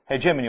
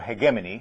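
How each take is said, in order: First: The word uses a non-British pronunciation. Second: The word uses a common British pronunciation.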